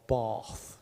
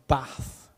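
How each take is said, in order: First: Bath with a long "ah", like "Barth"; drawn-out southern English vowel in Bath; locals' pronunciation. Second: Said in the usual way. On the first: Retold or imitated. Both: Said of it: "as you lot might say".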